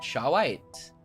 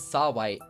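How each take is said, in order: First: The name begins with an 'sh' sound. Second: The name begins with a plain 's' sound. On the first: The speaker calls it wrong. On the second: The speaker calls it right.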